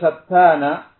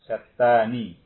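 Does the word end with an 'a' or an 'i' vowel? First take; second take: a; i. First: The final syllable ends with an 'a' vowel. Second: The final syllable ends with an 'i' vowel. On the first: "satana di fathanunnya" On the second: "mengkasroh nunnya. Jadi baca apa?"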